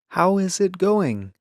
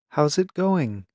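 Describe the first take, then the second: First: Each word is said fully and carefully. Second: It is said fast with words run together. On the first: "they may do it this way" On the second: "In fast speech, it sounds like this"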